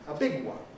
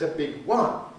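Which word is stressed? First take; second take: big; one. First: The stress falls on the word big. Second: The stress falls on the word one. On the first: "we don't accent one when it follows uh, an adjective" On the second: "on the other hand"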